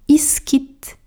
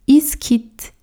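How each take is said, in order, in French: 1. Les mots sont collés ensemble en un seul. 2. Les mots sont collés ensemble en un seul.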